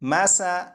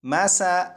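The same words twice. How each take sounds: Both takes have the same delivery.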